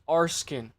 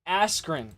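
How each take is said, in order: First: The name is said like 'Arskin'. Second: The name is said like 'Askren'. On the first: The speaker calls it wrong. "I fucked it up" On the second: The speaker calls it right. "How do you pronounce it?"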